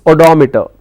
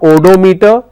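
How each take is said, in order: First: The stress is on the 'dom' syllable. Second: The stress is on a different syllable. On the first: The speaker calls it right. "it's odometer" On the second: The speaker calls it wrong. "It's not odometer"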